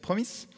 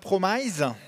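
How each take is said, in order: First: The second vowel is short, with a hard s. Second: The second vowel is long, with a buzzing s. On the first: The speaker calls it right. "un i court et un s dur" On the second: The speaker calls it wrong. "ça se dit pas promise"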